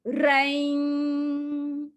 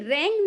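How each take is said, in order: First: The vowel is held long. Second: The vowel is held short. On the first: The speaker calls it right. "इसको double time देना है आपको" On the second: The speaker calls it wrong. "ये wrong नहीं है, एक एक मात्रा नहीं"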